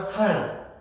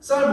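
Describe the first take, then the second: First: "살" with lax s, Gyeongsang style; Gyeongsang pronunciation. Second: Said in the usual way. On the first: Shown as a demonstration. Preacher demonstrates Gyeongsang speakers saying rice, Gyeongsang lax s. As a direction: Gyeongsang accent, softening 쌀's tense ss into "살". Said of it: "쌀은 뭐라 하면 살". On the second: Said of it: "쌀 못하잖아요".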